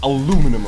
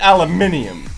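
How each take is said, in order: First: It is said without the extra syllable, American-style. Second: It is said with the extra syllable, British-style. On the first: The speaker calls it wrong. "Not aluminum or whatever the fuck they say" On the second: The speaker calls it right. "aluminium is aluminium"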